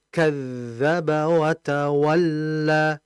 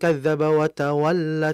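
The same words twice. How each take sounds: First: The phrase is unhurried, with the dh sustained. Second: The phrase is rushed, with the dh cut short. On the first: The speaker calls it right. "yang betul" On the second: The speaker calls it wrong. "Jangan seperti ini"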